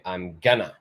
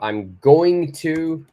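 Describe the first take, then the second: First: 'Going to' is reduced to 'gonna'. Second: Each word of 'going to' is said in full.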